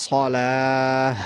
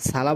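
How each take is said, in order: First: সলাহ with heavy rounded s, long final vowel; slow, level সলাহ ending in h; thick sad. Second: সালা with a light s and open a; wrong thin s. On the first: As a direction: make the s of সলাহ full and hold the aa. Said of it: "সদটা মোটা করে". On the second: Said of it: "সালা বললে ভুল হবে". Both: Shown as a demonstration.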